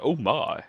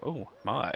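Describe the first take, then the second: First: A hint of a drawn-out oh my, a touch higher and louder; George Takei oh my. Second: Said in the usual way. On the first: Grandfather reacts to the scam, lightly in a famous catchphrase voice. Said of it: "like George Takei". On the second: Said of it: "And he's like".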